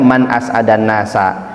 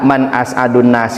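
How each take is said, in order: First: The middle word ends with an 'a' vowel. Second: The middle word ends with a 'u' vowel. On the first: It is the person who makes others happiest. "Tulisannya sama, cara bacanya yang berbeda" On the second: It asks who is the happiest person. "apakah orang yang paling berbahagia?"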